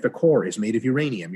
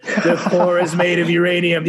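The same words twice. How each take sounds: First: Said in the usual way. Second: "The core is made of uranium" said loud and high, laughing through it; mocking repeat. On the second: Mocking repeat of the alien's claim.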